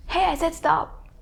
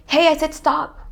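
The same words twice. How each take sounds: First: High-pitched mimicry of an annoyed friend; copycat echo. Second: Acted exasperation, high and loud; annoyed friend. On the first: Copycat parroting the fed-up friend, mimicking. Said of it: "trying to copy your friend". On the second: Friend telling the copycat off, acted annoyance. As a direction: play the fed-up friend, raised voice. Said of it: "Like when your friend say".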